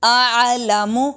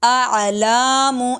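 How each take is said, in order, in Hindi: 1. L के बाद का स्वर छोटा है। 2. L के बाद का स्वर लंबा खिंचा हुआ है।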